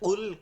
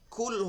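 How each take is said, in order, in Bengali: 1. প্রথম ব্যঞ্জনটি ভারী ও গভীর। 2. প্রথম ব্যঞ্জনটি হালকা ও পাতলা।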